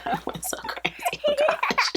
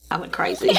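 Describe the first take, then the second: First: Squeaky laugh breaking through the words; laughing at her own shopping spree. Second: Said in the usual way. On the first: Real, not acted. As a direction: giggle it out, caught in laughter.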